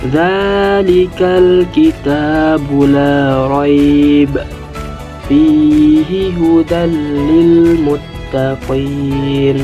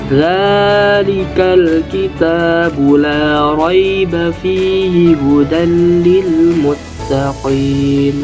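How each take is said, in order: First: There is a pause after raiba only. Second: There is no pause at all. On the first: The speaker calls it right. "Jika kita berhenti di tanda pertama" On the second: The speaker calls it wrong. "tidak berhenti sama sekali atau membacanya terus-menerus"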